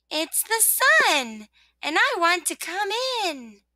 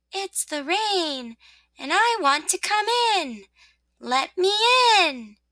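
First: High, singing-out sun greeting; cheerful little voice, drawn out slowly; soft, cheery voice. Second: High, slow, drawn-out rain plea; soft, gloomy voice. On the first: Sun asking rosebud to let it in, cheery. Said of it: "said a soft and cheery voice". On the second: Rain asking rosebud to let it in, softly gloomy. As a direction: plead slowly, with a touch of gloom. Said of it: "The same soft, gloomy voice said". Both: Acted.

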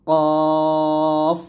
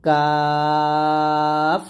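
First: কফ said heavy, with a rounded long vowel; কফ as a heavy Arabic qaf, held long; thick qaf. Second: কাফ with a thin, light k, vowel held long; কাফ kept thin and very long; thin kaf. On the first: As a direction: draw out কফ thick and full from the back. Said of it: "মোটা করে". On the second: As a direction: draw out কাফ with a light front k. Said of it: "কাফটা হবে পাতলা". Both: Shown as a demonstration.

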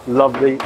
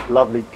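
No difference in how they are said.

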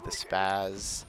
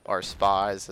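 First: Said in the usual way. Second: Spaz said slowly and louder, correcting himself; careful correction. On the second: Shown as a demonstration. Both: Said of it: "whatever the actual proper name is".

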